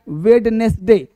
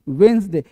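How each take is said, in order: First: The d and all three syllables are pronounced. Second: The d is dropped, giving two syllables. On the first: The speaker calls it wrong. "लोग बोलता है वेडनेसडे" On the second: The speaker calls it right. "ये डी को नहीं बोलते हैं"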